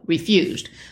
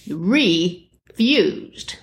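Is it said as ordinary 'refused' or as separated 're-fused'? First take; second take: refused; re-fused. First: It is said as the ordinary word refused. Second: It is said as re-fused, with a separate re. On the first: Someone declined something. "Said no, refused" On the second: Something was fused together again. "if you say it differently, refused, like you re-fuse something together"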